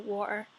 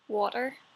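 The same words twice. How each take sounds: First: The T sound in the middle is dropped. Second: The T sound in the middle is pronounced.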